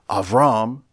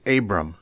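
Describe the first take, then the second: First: The name is said with its Hebrew pronunciation. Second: The name is said with its familiar English pronunciation. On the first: "a certain authentic pronunciation for words in the Bible" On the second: "You are perfectly free to pronounce these names"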